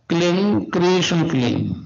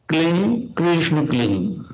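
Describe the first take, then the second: The two takes are said the same way.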